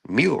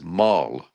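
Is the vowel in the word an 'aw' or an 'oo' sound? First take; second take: oo; aw. First: The word is said with an 'oo' vowel. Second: The word is said with an 'aw' vowel. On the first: The speaker calls it right. "The word was mule" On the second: The speaker calls it wrong. "you're saying that wrong." In front of the students, the word is maul"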